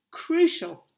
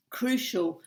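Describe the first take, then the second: First: Crucial said higher and louder with a fall; emphatic repeat. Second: Said in the usual way. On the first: Real, not acted. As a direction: punch crucial the second time. Repeats the key word for emphasis.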